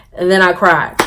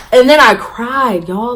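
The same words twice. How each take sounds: First: Said in the usual way. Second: Loud, high, stretched-out admission; raised, slow, hammed-up confession; dramatic emphasis. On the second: Real, not acted. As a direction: drag it out for comic drama.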